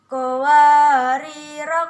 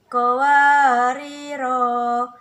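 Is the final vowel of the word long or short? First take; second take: short; long. First: The final vowel is kept short. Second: The final vowel is drawn out long. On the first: The reciter runs on without stopping. "jika ayat lima belas dan enam belas dibaca wasal, maka keduanya dibaca pendek" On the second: The reciter stops after this word. "jika wakaf pada qawariro pertama, maka ronya dibaca panjang"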